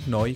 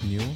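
First: The name is said like 'noy'. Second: The name is said like English 'new'. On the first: The speaker calls it right. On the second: The speaker calls it wrong.

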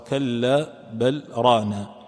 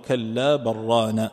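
First: A brief pause follows a clearly pronounced l. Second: The l merges into the following r. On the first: This is the reading of Asim. "وأما العاصم فإنه يقرأها" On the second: This is the majority reading. "فالجمهور يقرأون"

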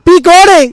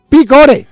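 First: It is shouted even louder, distorting. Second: It is shouted at a loud level.

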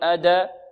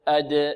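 First: The d bounces into an a vowel. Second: The d bounces with no vowel after it. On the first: The speaker calls it wrong. "لا نقول أدا" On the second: The speaker calls it right. "لا تميل لا إلى فتح ولا إلى كسر ولا إلى ضم"

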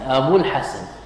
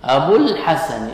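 First: The long u vowel is dropped before the l. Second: The long u vowel is held before the l. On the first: The speaker calls it right. "فحذفت الواو" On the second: The speaker calls it wrong. "لا تقول أبو الحسن"

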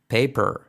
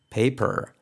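No difference in how they are said.

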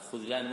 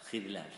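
First: The first vowel is not an i sound. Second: The first vowel is an i sound. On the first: The speaker calls it wrong. "هذا خذلان منتشر" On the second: The speaker calls it right. "خذلان فقط بالكسر"

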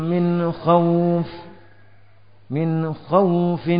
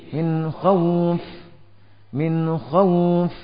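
No difference in how they are said.

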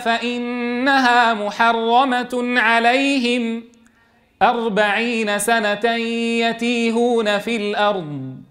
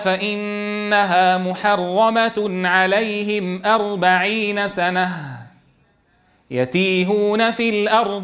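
First: The pause comes right before 'forty years'. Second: The pause comes right after 'forty years'. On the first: The wandering lasts forty years; the prohibition is permanent. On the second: The prohibition itself lasts forty years.

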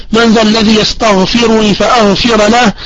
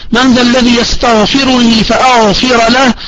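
No difference in how they are said.

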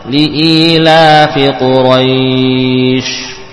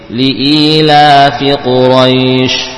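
First: The long vowel is held for four counts. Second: The long vowel is held for two counts. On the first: "4 harokat" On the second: "boleh 2"

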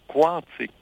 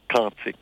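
First: The word begins with a kw sound. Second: The word begins with a plain k sound. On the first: The speaker calls it right. "on va l'appeler quantique" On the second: The speaker calls it wrong. "on ne va pas dire quantique"

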